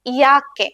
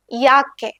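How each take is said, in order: Both takes have the same delivery.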